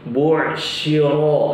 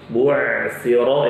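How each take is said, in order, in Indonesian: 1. Konsonan tengahnya adalah sh. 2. Konsonan tengahnya adalah th. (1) "Atau shin. Bu shiro ini juga salah" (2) "ini yang benar"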